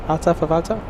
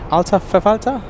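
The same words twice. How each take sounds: First: The second word begins with an F sound. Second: The same.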